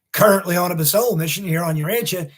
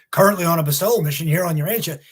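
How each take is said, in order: Both takes have the same delivery.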